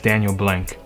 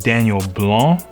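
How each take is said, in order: First: The surname is said the everyday, simplified way. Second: The surname is said the original, technical way. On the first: This is how most people say the name. "my name is" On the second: This is how the name should technically be said. "technically it's"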